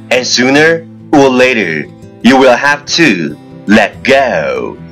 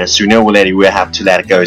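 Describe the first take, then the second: First: It is spoken at a moderate, even pace. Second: It is spoken very fast, in one breath.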